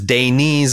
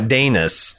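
First: The last syllable sounds like 'niece'. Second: The last syllable sounds like 'nus'. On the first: The speaker calls it right. "Daenys is Daenys" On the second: The speaker calls it wrong. "and not Daenys"

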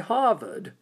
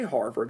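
First: It is said in a New England accent. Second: It is said in a General American accent. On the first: The speaker calls it right. "up in New England, they say Harvard" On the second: The speaker calls it wrong. "they don't say Harvard"

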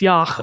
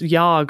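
First: The word ends with a throaty ch sound. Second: The word ends with a hard g sound. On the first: The speaker calls it right. "but it's yach, I think" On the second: The speaker calls it wrong. "I thought it was yog"

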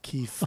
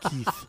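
First: The name ends with an F sound. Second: The name ends with a TH sound. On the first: "they say F" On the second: "instead of Keith"

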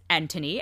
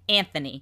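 First: The name is said with a British pronunciation. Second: The name is said with an American pronunciation. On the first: "the British pronunciation of Anthony Hopkins is Anthony" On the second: "if you are American, the pronunciation is apparently Anthony"

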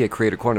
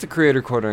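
First: It is spoken very fast, like an auctioneer. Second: It is spoken at a normal, relaxed pace. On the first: "Did that with my mouth. kind of felt like an auctioneer there" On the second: "in case you didn't catch that"

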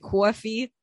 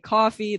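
First: The vowel is a rounded New York aw sound. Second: The vowel is a plain American ah sound. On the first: "they would say coffee" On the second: "I would say coffee"

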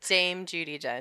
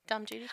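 First: The first word is pronounced like 'Dame'. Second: The first word is pronounced like 'Dom'. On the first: "Instead of Dame" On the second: "I like that you keep saying Dom Judi Dench"

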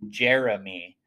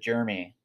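First: The name is said with strong, punched force. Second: The name is said plainly, without extra force. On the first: The speaker calls it right. "trying really hard to punch it" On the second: The speaker calls it wrong. "that's what I'm saying"

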